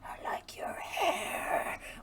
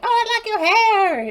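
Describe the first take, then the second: First: It sounds creepy and menacing. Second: It sounds friendly and harmless.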